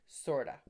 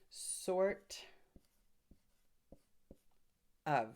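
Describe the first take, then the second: First: The two words blend into one reduced word. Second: The two words are said separately and fully.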